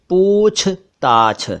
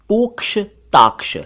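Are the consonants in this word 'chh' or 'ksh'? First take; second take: chh; ksh. First: The consonants are pronounced as chh. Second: The consonants are pronounced as ksh. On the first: The speaker calls it right. "सही शब्द है पूछताछ" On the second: The speaker calls it wrong. "मैंने पोक्ष ताक्ष लिखा हुआ देखा"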